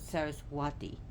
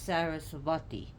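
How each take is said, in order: First: The consonant before the ending sounds like a W. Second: The consonant before the ending sounds like a V. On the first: "you could pronounce it Saraswati" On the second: "you could pronounce it as W or V"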